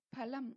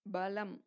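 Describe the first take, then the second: First: பலம் as phalam, breathy first p; aspirated p. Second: பலம் as balam, lower pitch; voiced b. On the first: Teacher giving a second-letter example, பலம் as phalam. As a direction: start பலம் with a puff of air. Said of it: "அது போல உச்சரிக்க". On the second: Teacher giving a third-letter example, பலம் as balam. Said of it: "ப three". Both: Shown as a demonstration.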